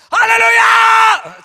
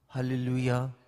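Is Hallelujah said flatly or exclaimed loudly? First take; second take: exclaimed; flatly. First: It is exclaimed loudly and with excitement. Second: It is said flatly, without excitement.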